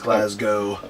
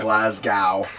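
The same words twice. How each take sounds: First: The second syllable sounds like 'go'. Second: The second syllable sounds like 'cow'. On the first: The speaker calls it right. "it's Glasgow" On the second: The speaker calls it wrong. "it's not ... this glass cow"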